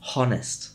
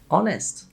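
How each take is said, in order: First: The H sound is pronounced. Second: The H sound is silent. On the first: The speaker calls it wrong. "not honest" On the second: The speaker calls it right. "H can be silent at the start of a word"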